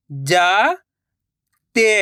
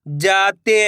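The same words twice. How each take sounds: First: जाते drawn out slowly, syllable by syllable; slow syllable split. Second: Said in the usual way. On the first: Shown as a demonstration. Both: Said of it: "मैं किस तरीके से".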